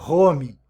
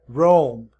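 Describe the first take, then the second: First: It begins with a throaty, Portuguese-style R. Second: It begins with a rounded, W-like R. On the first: The speaker calls it wrong. "Aqui a gente não pronuncia home" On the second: The speaker calls it right. "A gente pronuncia roam"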